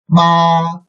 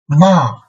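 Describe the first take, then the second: First: It is said with the first tone. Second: It is said with the fourth tone. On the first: "under the first tone" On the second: "and fourth tone"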